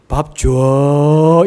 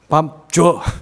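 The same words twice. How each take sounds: First: The phrase is said slowly and drawn out. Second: The phrase is said short and blunt. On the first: It sounds warm and gentle. The speaker calls it right. "좀 길게" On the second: It sounds curt and cold. The speaker calls it wrong. "이러면 안 되는 거예요"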